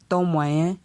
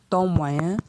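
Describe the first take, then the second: Both takes have the same delivery.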